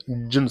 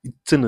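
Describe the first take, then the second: First: இஜ்ஜுன்னு with a buzzing jj, as "ijjunnu"; voiced J sound. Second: இச்சுன்னு with a crisp ch, as "ichunnu"; unvoiced CH sound. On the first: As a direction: voice the held j in இஜ்ஜுன்னு. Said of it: "இஜ்ஜுன்னு சொல்லணும்". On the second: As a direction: hiss out the ch in இச்சுன்னு without voice. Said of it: "இச்சுன்னு இல்ல". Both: Shown as a demonstration.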